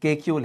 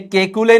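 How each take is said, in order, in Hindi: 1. नाम का अंत सादी 'l' की आवाज़ से होता है। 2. नाम का अंत 'lay' की आवाज़ से होता है। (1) "केक्यूल है" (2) "ये केकुले नहीं है"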